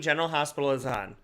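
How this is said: The voice sounds soft and sweet. The speaker calls it right. "I have to make my mom sound sweeter"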